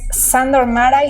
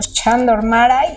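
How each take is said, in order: First: The name begins with an s sound. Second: The name begins with a ch sound. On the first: This is how the speaker usually says it. "yo le digo Sandor Maray" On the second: This is how a friend suggested it is said. "que era quizá Chandor"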